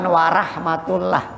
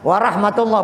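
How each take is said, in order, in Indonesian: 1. Bunyi vokal setelah huruf r seperti 'a'. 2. Bunyi vokal setelah huruf r seperti 'o'. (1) "bukan warahmatullah" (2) "ro ya ada ro"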